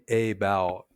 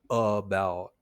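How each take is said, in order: First: The first vowel is a full vowel. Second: The first vowel is a weak uh sound. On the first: The speaker calls it wrong. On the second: The speaker calls it right.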